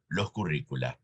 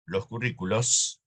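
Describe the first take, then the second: First: "los currícula" lower and softer; model Latin plural, low. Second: "los currículos" with a lifted end; model plural, rising. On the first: Teacher finishes dictating the Latin plural, low. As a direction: close the list with "los currícula", settled low. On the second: Teacher dictates the correct plural to students, rising. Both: Shown as a demonstration.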